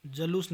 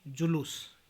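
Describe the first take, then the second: First: जलूस with a in the first syllable; mispronunciation. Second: Said in the usual way. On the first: Shown as a demonstration. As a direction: say ja-loos for जलूस. (जलूस, ज पर अ) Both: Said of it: "नहीं".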